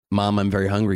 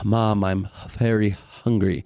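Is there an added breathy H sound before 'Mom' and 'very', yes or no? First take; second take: no; yes. First: The words start plainly, with no H sound added. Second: The words start with an added breathy H sound. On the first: "So instead of saying" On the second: "you say, ... put an H sound in front of harder sounds like M's or B's or V's"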